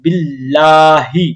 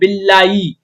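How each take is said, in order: First: The h sound before the last vowel is clear. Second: The h sound before the last vowel is dropped. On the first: The speaker calls it right. "हा की आवाज को बिल्कुल वाजिहा निकालेंगे" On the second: The speaker calls it wrong. "अक्सर लोग यहां पर गलती करते हैं, वो पढ़ते हैं बिल्लाई"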